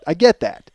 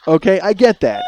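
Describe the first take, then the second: First: Said in the usual way. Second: Chuckling concession; admitting fault with a laugh. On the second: Real, not acted. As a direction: say it through a laugh.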